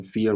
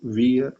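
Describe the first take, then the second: First: "फियर" starting with an f sound; German vier said as "फियर"; correct "फियर" pronunciation. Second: "वियर" starting with a v sound; wrong "वियर" pronunciation. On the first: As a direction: say "फियर" with f for the written v. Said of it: "वी को हम लोग एफ बोलते हैं". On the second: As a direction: say "वियर" with a v, as the mistake. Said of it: "फियर को वियर मत बोलिए". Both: Shown as a demonstration.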